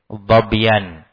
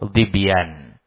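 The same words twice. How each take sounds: First: The first vowel is an open 'a' sound. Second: The first vowel is a front 'i' sound. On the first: This is the form language scholars call more eloquent. "bacaan fathah itu lebih fasih" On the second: This is the form hadith scholars use. "ahlul hadith membacanya dengan kasrah"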